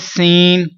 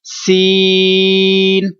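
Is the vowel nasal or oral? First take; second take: nasal; oral. First: The vowel is short and goes through the nose. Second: The vowel is long and does not go through the nose. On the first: The speaker calls it wrong. "सीन नाक में आवाज ले जाते हैं, तो दुरुस्त नहीं है" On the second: The speaker calls it right. "तीन सेकंड तक इसको लंबा करना है और नाक में आवाज नहीं जाने देंगे"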